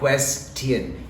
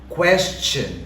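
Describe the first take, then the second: First: The middle consonant sounds like T. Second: The middle consonant sounds like CH. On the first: The speaker calls it wrong. "not question. It's not a T" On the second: The speaker calls it right. "it's a ch"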